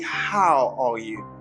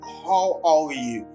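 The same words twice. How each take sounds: First: The h sound at the start is strong. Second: The h sound at the start is weak. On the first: The speaker calls it right. "You stress the H and then you pronounce all as as ah ah" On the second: The speaker calls it wrong. "Don't say how are you"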